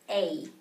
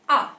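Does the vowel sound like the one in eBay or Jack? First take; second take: eBay; Jack. First: The vowel sounds like the one in eBay. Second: The vowel sounds like the one in Jack. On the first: This is the name of the letter. "it is spelled out as A" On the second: This is how the letter sounds inside some words. "in some words you may hear it as A. For example, in uh, the name Jack"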